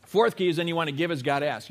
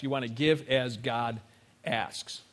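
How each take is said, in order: First: Said in the usual way. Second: "give as God asks" said slowly, lower and softer, with a pause before "asks"; slow emphatic repeat. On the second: Shown as a demonstration. Pastor repeating the key point to the congregation, slow and low. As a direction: drop down and slow it.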